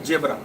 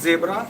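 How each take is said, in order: First: The word begins with a j sound. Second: The word begins with a buzzing z sound. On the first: The speaker calls it wrong. "not zebra" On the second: The speaker calls it right. "It is zebra"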